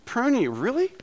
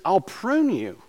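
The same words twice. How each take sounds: First: High, incredulous "Prune you, really?"; mock disbelief. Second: Said in the usual way. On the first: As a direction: act shocked at the idea of being pruned. Preacher's mock disbelief at pruning.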